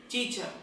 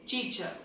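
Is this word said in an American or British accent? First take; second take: British; British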